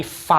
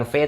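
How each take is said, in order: First: "V" said as fow, with an f sound; German V name. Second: "V" said as Indonesian fe; wrong letter name. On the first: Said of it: "tapi V". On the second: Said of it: "bacanya bukan V". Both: Shown as a demonstration.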